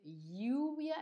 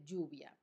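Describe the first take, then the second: First: "lluvia" with the ll said as a palatal lateral, like lyoo-via; teacher shows "lluvia" with a distinct ll; lluvia with a ll sound. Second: "lluvia" with the ll said as a plain y sound, yoo-via; "lluvia" as most speakers say it, with a y. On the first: Teacher shows students the older "lluvia" said with a clear ll. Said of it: "Hay gente que dice lluvia". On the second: Teacher shows students the common "lluvia" with a y sound. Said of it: "hay gente que dice lluvia". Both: Shown as a demonstration.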